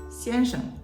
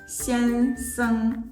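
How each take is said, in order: First: The second syllable has a light neutral tone. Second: The second syllable keeps its full tone. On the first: This is the common mainland China form. "with a neutral tone for the second character sheng" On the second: This is the usual Taiwan form. "in Taiwan, it's usually pronounced"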